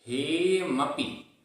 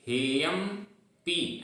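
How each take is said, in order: First: हेयमपि as one joined word, slow; correct pronunciation. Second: हेयम पी split in two, long stressed पी; wrong pronunciation. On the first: Teacher shows the right way to say the word. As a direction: say हेयमपि smoothly with no break before पि. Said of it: "हेयमपि ऐसे बोलना है". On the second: Teacher demonstrates the mistake to avoid. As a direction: break हेयम and stretch पी wrongly. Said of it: "ऐसा नहीं बोल रहे हैं". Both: Shown as a demonstration.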